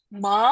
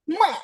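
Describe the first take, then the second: First: It is said with the rising second tone. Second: It is said with the Mandarin fourth tone. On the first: "nah ini tuh harus naik" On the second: "Nada keempat kita lafalkan ini"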